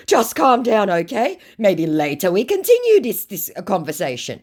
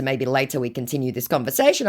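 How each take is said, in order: First: High, loud start, easing down; mock placating scammer. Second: Said in the usual way. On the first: Acts scammer; later read back plain.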